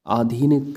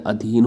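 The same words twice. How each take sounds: First: अधीन with a long first vowel, "aadheen"; अधीन drawn out as "aa-dheen"; wrong form. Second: अधीन with a short first vowel; quick short "a" opening अधीन; correct form. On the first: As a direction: stretch the opening of अधीन into "aa". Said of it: "नहीं होता है". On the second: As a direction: say अधीन as "uh-dheen". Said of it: "अधीन होता है". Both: Shown as a demonstration.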